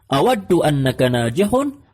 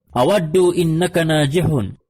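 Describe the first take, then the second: First: The second word begins with an 'a' vowel. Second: The second word begins with an 'i' vowel. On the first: The speaker calls it right. "Tetapi harus dibaca anna" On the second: The speaker calls it wrong. "Ini tidak bisa"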